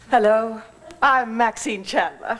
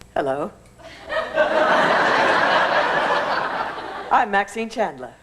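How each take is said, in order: First: It is said in a plain, confident tone. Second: It is said in a tone between confident and meek.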